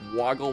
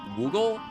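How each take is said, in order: First: The word rhymes with goggle. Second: The word rhymes with Google. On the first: The speaker calls it wrong. "It's not woggle?" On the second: The speaker calls it right. "Like Google, but with a W"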